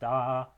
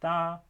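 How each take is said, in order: First: The word is said on a low pitch. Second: The word is said on a high pitch. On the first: The action will happen in the future. "each of those high tones into low tones" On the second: The action happened in the past. "the high tone in this language indicates"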